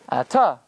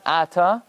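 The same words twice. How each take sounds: First: The stress is on the last syllable. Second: The stress is on the first syllable. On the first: The speaker calls it right. "you emphasize the last syllable" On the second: The speaker calls it wrong. "It's not Ata"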